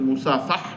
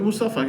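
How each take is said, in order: First: The word ends with an h sound. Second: The word ends on a plain vowel. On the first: This is the original form of the word. The speaker calls it right. "কিন্তু আসলে মুসাফাহ শব্দ" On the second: This is the everyday local way of saying it. The speaker calls it wrong. "আমরা বলি মুসাফা"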